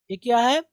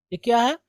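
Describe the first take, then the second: No difference in how they are said.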